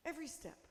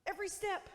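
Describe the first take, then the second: First: A quieter echo of every step, dropping away; soft echo. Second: Firm and a bit higher on every step; emphatic promise. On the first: Preacher echoing the promise to the congregation, softer. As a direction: let it fall back, soft and close. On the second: Preacher promising the congregation, firm emphatic voice. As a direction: plant each word, every step. Repeats promise, then echoes softly. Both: Acted.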